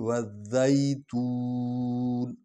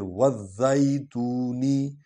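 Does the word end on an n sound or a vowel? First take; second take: n sound; vowel. First: The word ends on a final n sound. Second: The word ends with an added vowel. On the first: The reciter stops at the verse end. "तो हम यहाँ रुक रहे हैं।" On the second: The reciter carries on into the next verse. "अगर आप मिलाना चाहते हैं तो फिर"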